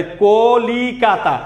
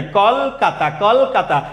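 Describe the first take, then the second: First: কলিকাতা drawn out as ko-li-ka-ta; four syllables. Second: কলকাতা as kol-ka-ta, l with no vowel; closed first syllable. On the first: Teacher recaps the count of four, four syllables. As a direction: sound out all four beats of কলিকাতা slowly. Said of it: "কলিকাতা চারটা". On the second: Teacher shows l carries no vowel, closed first syllable. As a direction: hold kol, then ka-ta in কলকাতা. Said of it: "লয়ের সাথে অ উচ্চারণ হয় না". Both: Shown as a demonstration.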